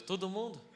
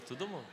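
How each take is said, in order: First: "Todo mundo?" rising in surprise, slightly higher; surprised question. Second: Said in the usual way. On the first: Retold or imitated. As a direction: ask "Todo mundo?" in disbelief. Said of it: "Aí eu falei com Deus". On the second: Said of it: "Ele falou".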